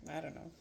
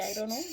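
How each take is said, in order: First: Said in the usual way. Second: Put-on playful Italian accent with rising end. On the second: Cook unsure about rinsing and peeling, in an Italian accent. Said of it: "Forgive my Italian accent".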